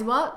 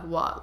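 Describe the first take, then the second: First: It sounds surprised. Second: It sounds dismissive, like whatever.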